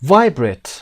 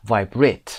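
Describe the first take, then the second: First: VIBRATE with a high, loud VI, falling on BRATE; American stress on VI. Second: VIBRATE with the second syllable, BRATE, stressed and raised; British stress on BRATE. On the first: Teacher gives American version, stress on VI in VIBRATE. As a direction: hit the first syllable of VIBRATE, American style. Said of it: "قسمت وای". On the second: Teacher gives British option, stress on BRATE in VIBRATE. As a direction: save the weight for BRATE in VIBRATE, British style. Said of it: "اگر بریتیش خواستید بگید". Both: Shown as a demonstration.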